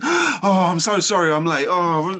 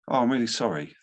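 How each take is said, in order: First: It is said flustered, gasping and upset. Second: It is said calmly and evenly.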